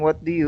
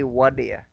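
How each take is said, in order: First: Each of the three words is said separately. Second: The words run together into one reduced word. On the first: "instead of saying what do you" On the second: "you say wadaya"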